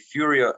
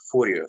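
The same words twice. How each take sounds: First: The name is said with an American pronunciation. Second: The name is said with an Italian pronunciation. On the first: "You Americans say" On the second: "I just say"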